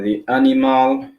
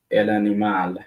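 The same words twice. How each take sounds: First: Animal in English, stress on the first syllable, AN-i-mal; English pronunciation. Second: Animal in Spanish, a-ni-MAL, stress on the last syllable; Spanish pronunciation. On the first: Teacher models animal in English for learners, stress on AN-i-mal. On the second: Teacher models el animal in Spanish for learners, stress on a-ni-MAL. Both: Shown as a demonstration. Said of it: "identical in English and Spanish".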